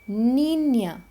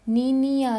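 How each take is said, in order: First: The ñ is one blended ny sound. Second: The ñ is split into separate n-i-a sounds. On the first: The speaker calls it right. "न्य, नी नहीं" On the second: The speaker calls it wrong. "नीनिया नहीं"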